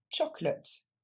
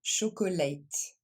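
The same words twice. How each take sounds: First: "chocolate" in two syllables, "CHOK-lut"; crisp "ch" on "chocolate", middle vowel dropped; correct English pronunciation. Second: "chocolate" as "sho-ko-late", three full syllables; wrong pronunciation. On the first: Teacher shows learners the right way, two-syllable English pronunciation. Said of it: "Et ça se prononce". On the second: Teacher shows learners what not to say, wrong pronunciation. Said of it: "On ne dit pas". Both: Shown as a demonstration.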